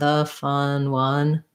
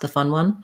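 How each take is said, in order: First: The phrase is said slowly. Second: The phrase is said quickly. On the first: "then try to slow down" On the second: "So if you can go fast"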